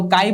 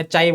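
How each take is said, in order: First: काई said with a hard k, "kai"; chi said kai. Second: चाई said with a ch sound, "chai"; chi said chai. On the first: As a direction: start काई with a k sound. (काई, क की आवाज़ से) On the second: (चाई, च की आवाज़ से) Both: Shown as a demonstration. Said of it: "और प्रोनाउंस है क्या?".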